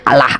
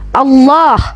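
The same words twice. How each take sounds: First: The double L is said light and thin. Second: The double L is said thick and heavy. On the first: The speaker calls it wrong. "orang Kristen biasanya kan bacanya" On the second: The speaker calls it right.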